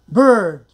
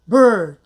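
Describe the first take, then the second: No difference in how they are said.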